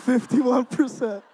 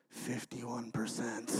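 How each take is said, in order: First: Slow, laughing repeat at normal pitch; amused repeat. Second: Low, hushed, slow echo; voice in the head. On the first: Real, not acted. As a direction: say it out loud with an incredulous laugh. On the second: Retold or imitated. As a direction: drop low and soft, like a remembered line haunting you. Brother's words echo in his head.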